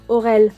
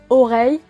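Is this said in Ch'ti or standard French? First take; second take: Ch'ti; standard. First: The word ends with an 'el' sound. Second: The word ends with an 'ey' sound. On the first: "qui se dira orel" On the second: "le mot oreille"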